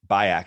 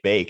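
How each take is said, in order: First: The name is said with two syllables. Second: The name is said with one syllable. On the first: This is a private reading of the name. "I pronounce it Bayak in my head" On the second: This is how most people say the name. "people say bake"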